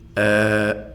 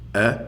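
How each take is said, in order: First: The vowel is drawn out and prolonged. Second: The vowel is short and clipped. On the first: The speaker calls it right. "on va le prononcer a" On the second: The speaker calls it wrong. "on ne prononce pas comme ceci"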